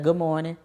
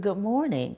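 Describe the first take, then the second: First: It is said flatly, without a smile. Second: It is said warmly, with a smile. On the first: The speaker calls it wrong. "instead of" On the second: The speaker calls it right.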